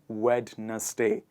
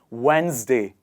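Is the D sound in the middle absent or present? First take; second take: present; absent. First: A D sound is heard in the middle. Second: No D sound; a Z sound is heard. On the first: The speaker calls it wrong. "not Wednesday" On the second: The speaker calls it right. "you remove the D sound and you add the Z sound here. And it becomes Wednesday"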